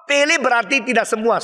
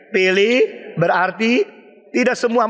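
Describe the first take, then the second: First: Said in the usual way. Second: "Pilih" ... "berarti" ... "tidak semua" spaced with pauses; slow word by word. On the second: Shown as a demonstration. Preacher spells out "Pilih berarti tidak semua" to the congregation, word by word. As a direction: lay out "Pilih berarti tidak semua" word by word, each one set apart.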